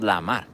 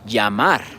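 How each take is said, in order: First: The first sound is like an English l. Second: The first sound is like an English y. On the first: The speaker calls it wrong. "It's not lamar" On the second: The speaker calls it right. "we say llamar"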